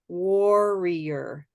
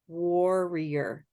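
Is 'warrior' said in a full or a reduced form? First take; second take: full; full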